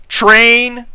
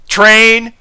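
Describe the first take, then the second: Both takes have the same delivery.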